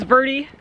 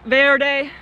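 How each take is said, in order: First: Verde said as VUR-dee; anglicized Verde, local Arizona way; local pronunciation. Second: Verde said as VAIR-day; Spanish-style verde with open e and "-day" ending; Spanish pronunciation. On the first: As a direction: say Verde to rhyme with dirty. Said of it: "rhymes with dirty". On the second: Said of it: "like you might say in Spanish". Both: Shown as a demonstration.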